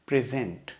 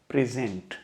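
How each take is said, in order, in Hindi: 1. ज़ोर दूसरे अक्षर पर है। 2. ज़ोर दूसरे अक्षर पर है।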